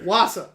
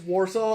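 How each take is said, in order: First: The word is said without an R sound. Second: The word is said with an R sound. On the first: This is how an outsider from the Northeast says it. The speaker calls it wrong. "whenever he says Warsaw, it's Wausau" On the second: This is how locals say the town's name. The speaker calls it right. "there's a very important R in that word"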